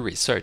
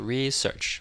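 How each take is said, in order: First: The stress is on the second syllable. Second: The stress is on the first syllable. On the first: The speaker calls it wrong. "不是research" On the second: The speaker calls it right. "注意这个单词的重音在一重音啊，是research 名词"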